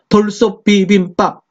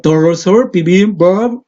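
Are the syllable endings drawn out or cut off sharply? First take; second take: cut off; drawn out. First: It comes from the throat with endings cut short. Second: It comes from the belly with endings drawn out. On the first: "목에서 하면 딱 끊을 수 있는데" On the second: "배에서부터 소리가 나니까"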